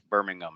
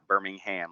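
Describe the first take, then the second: First: Birmingham is pronounced the British way. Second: Birmingham is pronounced the Alabama way. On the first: This is the name of the English city. The speaker calls it right. "it's Birmingham" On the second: This is the name of the Alabama city. The speaker calls it wrong. "not Birmingham like it is in Bama"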